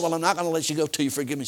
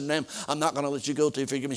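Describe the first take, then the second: First: Faster and louder, hitting not; firmer, quicker insistence on not; insistent repeat. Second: Said in the usual way. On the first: Retold or imitated. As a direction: press harder than the first plea. Preacher insists, second time.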